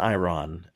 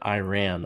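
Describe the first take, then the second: First: It is said in a neutral accent. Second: It is said in a Texas accent. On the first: The speaker calls it right. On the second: The speaker calls it wrong. "sorry, Texas accent"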